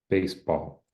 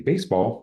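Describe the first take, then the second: First: Both syllables carry equal stress. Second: The stress falls on the first syllable only. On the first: The speaker calls it wrong. "they don't have any different stress there" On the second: The speaker calls it right. "like it should be"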